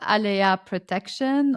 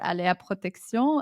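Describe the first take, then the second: First: The name is pronounced the English way. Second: The name is pronounced the French way.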